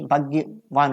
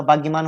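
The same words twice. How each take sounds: First: भाग्यवान ending in "-vaan"; correct form. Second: भाग्यमान ending in "-maan"; incorrect form. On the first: Teacher giving the correction, भाग्यवान with "-vaan". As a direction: say भाग्यवान with v in the last syllable. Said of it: "भाग्यवान होगा". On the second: Teacher rejecting the error, भाग्यमान with "-maan". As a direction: say भाग्यमान with an m before the last vowel. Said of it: "तो ये तो अशुद्धि है". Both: Shown as a demonstration.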